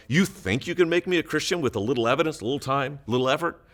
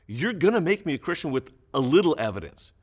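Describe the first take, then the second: First: Quick, rising question on "effort?". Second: Flat statement falling on "evidence.". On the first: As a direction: read "a little effort?" with a lift at the end, asking. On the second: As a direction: state it, down at the end. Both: Shown as a demonstration. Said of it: "we don't know if it's a question or if it's a comment".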